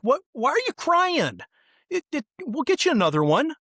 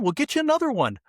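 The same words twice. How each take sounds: First: High, coaxing voice of a grown-up; mock-soothing, like calming a small child; adult soothing a crying kid. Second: High, flustered version of the soothing line; rushed and panicky, hammed up; mock frantic adult. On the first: Grown-up comforts the kid who lost his balloon, high and coaxing. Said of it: "and the adult's like". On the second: Adult panics over his own wallet, high and flustered.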